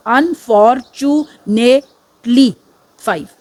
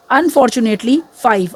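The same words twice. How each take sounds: First: Slow syllable count. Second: Said in the usual way. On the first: Shown as a demonstration.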